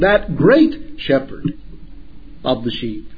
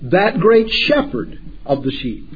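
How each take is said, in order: First: The word great carries strong emphasis. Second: The word great carries no special emphasis.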